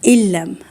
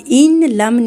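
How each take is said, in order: First: The n merges into a doubled l sound. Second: The n is clearly sounded before the l. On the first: The speaker calls it right. "नून साइलेंट करेंगे" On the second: The speaker calls it wrong. "अब इन लम नहीं करना"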